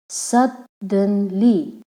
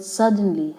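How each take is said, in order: First: "Suddenly" slowly in three separate syllables; broken into syllables. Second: Said in the usual way. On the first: Shown as a demonstration. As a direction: pause between each syllable of "Suddenly". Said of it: "suddenly has three syllables". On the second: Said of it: "has three syllables".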